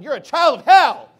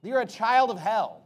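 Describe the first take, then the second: First: Full-force shout, much louder and higher; acted yell. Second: Louder, slow and weighty imitation of a rebuke; mild retold yell. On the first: Preacher acting out saying it to someone today, shouting. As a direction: yell it at them as a fierce rebuke. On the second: Preacher quoting Jesus at the Pharisees, a measured mock yell. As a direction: retell a yell with some force, stretched out. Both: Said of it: "when he's yelling at the Pharisees".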